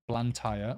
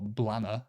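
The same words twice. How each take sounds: First: Said in the usual way. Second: "Blanner", a shortened local form of Blantyre; local pronunciation. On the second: Shown as a demonstration. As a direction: say "Blanner" with the "tyre" reduced away. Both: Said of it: "I've heard some people say".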